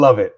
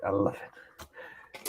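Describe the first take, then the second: First: Said in the usual way. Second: Whispering. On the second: Acted. Whispered echo after loud line.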